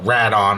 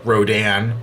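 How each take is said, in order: First: The name is pronounced the Japanese way. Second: The name is pronounced the English way.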